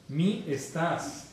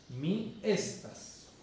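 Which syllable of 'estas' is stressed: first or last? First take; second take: last; first. First: The stress is on the last syllable of estas. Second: The stress is on the first syllable of estas. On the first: The speaker calls it wrong. "un error común es mi estás" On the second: The speaker calls it right. "Toda palabra en Esperanto tiene acento grave"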